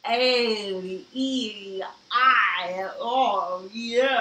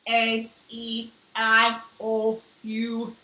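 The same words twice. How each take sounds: First: It sounds muffled, as if the mouth is full. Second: It is said in a flat robot voice.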